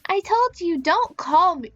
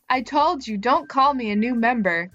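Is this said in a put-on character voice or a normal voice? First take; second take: character voice; normal voice. First: It is said in a put-on character voice. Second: It is said in the speaker's normal voice.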